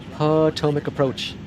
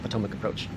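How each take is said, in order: First: The phrase is said in a stilted, unnatural way. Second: The phrase is said in a smooth, natural way. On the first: This is how the old computer voice said it. The speaker calls it wrong. "It used to go" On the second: This is how the fixed computer voice says it. The speaker calls it right. "it sounds more natural"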